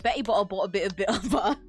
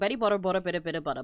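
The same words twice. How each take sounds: First: The T sounds are dropped. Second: The T sounds are clearly pronounced. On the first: "I can do that because I have it sometimes" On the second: "I don't have that type of British accent where I drop my T's"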